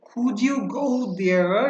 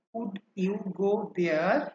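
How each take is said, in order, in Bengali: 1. 'could' আর 'you' মিলে একটাই ধ্বনি হয়ে যায়। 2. প্রতিটি শব্দ আলাদা আলাদাভাবে, স্পষ্ট করে বলা হয়। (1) "আমেরিকানরা এইটাকে কিন্তু বলে খুঁজিও" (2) "মানে আমরা কিন্তু বলছি"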